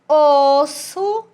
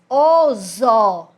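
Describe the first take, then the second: First: The middle consonant is a hissing S sound. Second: The middle consonant is a buzzing Z sound. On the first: "o som de S" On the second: "ele ia ficar com o som de Z"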